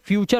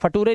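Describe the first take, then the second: First: The middle consonant is a 'ch' sound. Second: The middle consonant is a plain 't' sound. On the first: The speaker calls it right. "ये फ्यूचर हो गया" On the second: The speaker calls it wrong. "ये फटूरे नहीं है"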